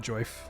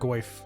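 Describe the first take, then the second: First: The name starts with a J sound. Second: The name starts with a hard G sound. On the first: "I really enjoy um, mispronouncing uh, the G and the J" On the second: "I do think I call uh"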